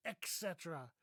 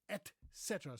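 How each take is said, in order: First: "et cetera" as ek-SET-era; "et cetera" said as if spelt with an x; mispronounced et cetera. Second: "et cetera" with a t, ET SET-er-a; two words, "et" then "cetera"; correct et cetera. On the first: Retold or imitated. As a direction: put a wrong k sound in "et cetera". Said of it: "I don't know why people say". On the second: Shown as a demonstration. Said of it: "there's no X in here".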